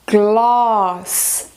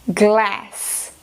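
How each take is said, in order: First: British accent with a long open A vowel. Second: American accent with a short A as in cat. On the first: "Em britânico, também a gente encontra esse som comprido" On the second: "em americano, fica"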